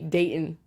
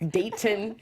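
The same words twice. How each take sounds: First: The middle t is soft, not sharply pronounced. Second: The middle t is crisp and strongly pronounced. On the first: The speaker calls it right. "trying to be Dayton" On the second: The speaker calls it wrong. "instead of date Dayton"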